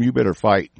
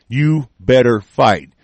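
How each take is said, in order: First: Said in the usual way. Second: You leaned on, slow and falling; a slow, heavy warning; slow stress on You. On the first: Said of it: "first take of the warning". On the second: Real, not acted. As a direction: hammer each word, slowly. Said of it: "slower repeat hammering the warning".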